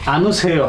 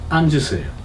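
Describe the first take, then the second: First: No 'j' sound links 'an' to 'u'. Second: A 'j' sound links 'an' to 'u'. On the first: The speaker calls it wrong. "এখন আনুসেয় হবে না" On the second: The speaker calls it right. "তার পূর্বের রূপ ধারণ করছে"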